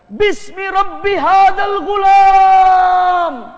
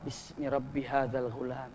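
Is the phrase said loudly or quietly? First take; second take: loudly; quietly. First: The phrase is shouted loudly and angrily. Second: The phrase is spoken softly and quietly. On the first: The attempt is forceful and succeeds. The speaker calls it right. "dengan marahnya dia teriak" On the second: The attempt lacks force and fails. The speaker calls it wrong. "Pertama pelan"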